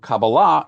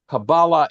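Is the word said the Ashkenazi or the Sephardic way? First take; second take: Sephardic; Ashkenazi. First: It is said in Sephardic Hebrew pronunciation. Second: It is said in Ashkenazi Hebrew pronunciation.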